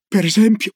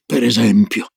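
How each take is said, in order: First: PER ESEMPIO pitched high, rising as a question; high, curious "Per esempio?". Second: "per esempio" low and settled, as a statement; low, assured "per esempio"; answering echo. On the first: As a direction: ask "Per esempio" with an eager upward lift. Child eagerly asks for an example. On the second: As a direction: repeat "per esempio" in a lower grandmotherly register. Grandma echoes it as her answer. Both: Acted.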